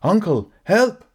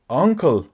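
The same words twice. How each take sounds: First: High, loud shout for help; panicked cry for help. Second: Uncertain high-pitched plea to his uncle; a timid, higher call of "Uncle"; nervous call. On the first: Collier, floundering in the pond, screams to his uncle for help. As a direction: yell from the water in panic. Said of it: "Collier called out". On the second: Nephew nervously appeals to his uncle, voice raised high. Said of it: "with much less confidence than the man". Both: Acted.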